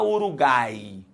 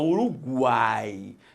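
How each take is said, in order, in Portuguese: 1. O U depois do G é mudo. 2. O U depois do G é pronunciado. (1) "Você não fala Uruguai" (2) "você fala Uruguai... você pronuncia o U"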